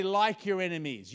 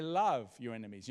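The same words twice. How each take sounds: First: Like your enemies with Like pushed up high and loud; stress on like. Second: Love your enemies with Love weighted and firm; stress on love. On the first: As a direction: lean hard on the word Like. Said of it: "You don't have to like your enemies". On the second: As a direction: put the weight on the word Love. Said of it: "You know what that word love is?". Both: Shown as a demonstration.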